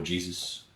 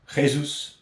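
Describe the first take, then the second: First: Said in the usual way. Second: "Jesus" said the Spanish way, as hay-SOOS with a rasped h. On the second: Shown as a demonstration. Reading a fan's name for a signing, "Jesus" as Spanish hay-SOOS. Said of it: "or Jesus".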